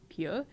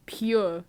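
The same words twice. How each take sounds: First: Puzzled. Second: Said in the usual way. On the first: Real, not acted.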